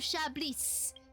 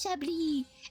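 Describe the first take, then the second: First: The name ends with an audible S sound. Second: The name ends without any S sound. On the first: The speaker calls it wrong. "The S is not supposed to be pronounced" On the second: The speaker calls it right. "nah, her name is Chablis"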